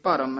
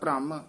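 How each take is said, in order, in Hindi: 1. r को स्वर के साथ पूरा उच्चारित किया जाता है। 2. r, bh से जुड़कर एक संयुक्त ध्वनि बनाता है। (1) "ਰਾਰਾ ਪੂਰਾ ਉਚਾਰਨ ਕਰਨਾ ਹੈ" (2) "ਹੇਠਾਂ ਰਾਰਾ ਹੋਵੇ ਤਾਂ ਭ੍ਰਮ"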